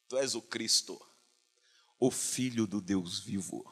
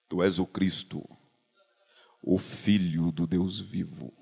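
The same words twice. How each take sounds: First: It is said in an ordinary speaking voice. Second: It is said in a booming announcer voice.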